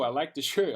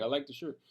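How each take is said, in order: First: Laughing through the words. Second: Said in the usual way. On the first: Real, not acted. To the viewers about his new work shirt, laughing. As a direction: chuckle as you say you like the shirt.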